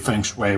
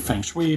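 First: It is said with the usual North American pronunciation. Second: It is said literally, every letter sounded out. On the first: This is what people commonly say. "which is what people say in North America" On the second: This is an older personal habit. "I used to just do it phonetically"

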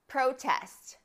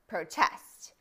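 First: The stress is on the first syllable. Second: The stress is on the second syllable. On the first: It names a public show of disagreement. "A protest is when there's a public show of disagreement" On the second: It names the action of objecting. "To protest means to express disagreement"

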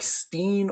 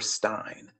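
First: The vowel sounds like 'ee' in pristine. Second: The vowel sounds like 'eye' in mine. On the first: The speaker calls it right. "It is actually pronounced Steen, like pristine" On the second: The speaker calls it wrong. "I said it can't be Stein"

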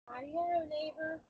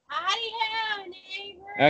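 First: It is said quietly. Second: It is said loudly.

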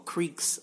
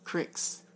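First: It is said 'creek', the standard way. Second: It is said 'crick', Western Pennsylvania style.

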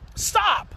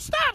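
First: It sounds calm, firm and forceful, not loud. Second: It sounds anxious and flustered, like playing.

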